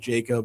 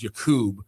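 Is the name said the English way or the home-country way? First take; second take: English; home-country. First: The name is said the English way. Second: The name is said the home-country way. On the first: "just go with Jacob" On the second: "technically back home it's pronounced Jakub"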